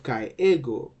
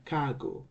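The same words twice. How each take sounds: First: KAI EGO as two words with every vowel kept; uncontracted form. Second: KAGO merged into a single word; fuse kai and ego into "kago"; contracted form. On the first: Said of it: "instead of kai ego". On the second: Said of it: "these two words combine". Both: Shown as a demonstration.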